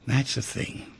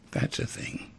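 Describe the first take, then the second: First: Said in the usual way. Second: "That's a thing" repeated in a soft whisper with no voice; "That's a thing" murmured almost silently, as if to himself. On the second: Shown as a demonstration.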